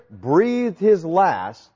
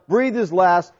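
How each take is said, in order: First: "breathed his last" stretched out very slowly, each word weighted; slow emphasis. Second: Said in the usual way. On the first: Shown as a demonstration. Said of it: "comes from the Greek word".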